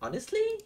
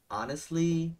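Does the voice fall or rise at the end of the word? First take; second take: rise; fall. First: The pitch rises at the end of the word. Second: The pitch falls at the end of the word. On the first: The speaker calls it wrong. "thường có thói quen đi lên ở cuối từ" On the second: The speaker calls it right. "Cho dấu huyền thẳng vào"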